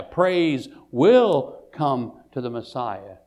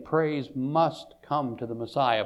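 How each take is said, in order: First: "will" punched out and stretched; slow sentence with a heavy, certain "will"; stress on will. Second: "must" leaned on firmly; stress on must. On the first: Restates must as will. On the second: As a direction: press the word "must" as a necessity. Contrasts must with will. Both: Shown as a demonstration.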